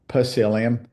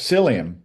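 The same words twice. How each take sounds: First: The word begins with a sounded p. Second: The word begins with a plain s sound.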